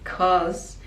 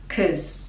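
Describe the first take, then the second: First: The vowel in 'cause is full and longer. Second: The vowel in 'cause is a short schwa. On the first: "in speaking we make it 'cause" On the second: "even shorter with schwa"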